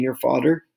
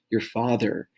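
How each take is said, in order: First: FATHER slipped, its middle sound off; slipped pronunciation. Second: Said in the usual way. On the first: Real, not acted. Teacher listing parents for students, tongue slipping on FATHER. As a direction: mispronounce FATHER by accident, with a wrong middle consonant. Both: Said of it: "not father".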